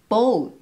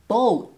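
Both takes have the same delivery.

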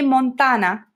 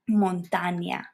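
First: The n is plain, with no glide after it. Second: The n is followed by a y-like glide. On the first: The speaker calls it wrong. "we don't say montana" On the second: The speaker calls it right. "like if there was a little I in between the N and the A"

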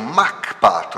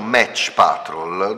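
First: The first word ends in a 'k' sound. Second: The first word ends in a 'ch' sound. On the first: "in realtà la dizione corretta sarebbe Mach Patrol" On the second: "se noi pronunciamo Match Patrol, dovrebbe essere scritto M-A-T-C-H"

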